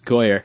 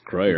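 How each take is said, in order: First: No R sound follows the first consonant. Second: An R sound follows the first consonant. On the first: The speaker calls it right. "It's Goyer" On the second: The speaker calls it wrong. "It's not Groyer"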